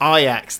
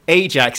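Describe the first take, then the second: First: Ajax is said as the football team's name. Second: Ajax is said as the comic villain's name. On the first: It names the Dutch football team. The speaker calls it wrong. "not Ajax, the Dutch football team" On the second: It names the Deadpool villain. The speaker calls it right. "I have to go Ajax"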